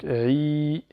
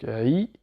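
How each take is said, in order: First: "i" from the throat as ayn, held long; long throaty "i"; lengthened ayn i. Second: "i" from the throat as ayn, kept short; short throaty "i". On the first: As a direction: stretch "i" into a long ii after Arabic ayn. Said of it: "Allongé par la voyelle longue ya". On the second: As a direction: say a brief "i" starting with Arabic ayn. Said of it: "Lettre ayn avec le i". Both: Shown as a demonstration.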